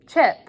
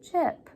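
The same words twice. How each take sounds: First: It is said loudly. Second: It is said a little louder.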